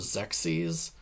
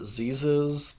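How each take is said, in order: First: The name begins with a ks sound. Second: The name begins with a z sound. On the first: This is what the speaker thinks the name really is. The speaker calls it right. "but I think it's called Xexes" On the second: This is how the speaker used to say it. The speaker calls it wrong. "I always pronounced it Zezes back in the day"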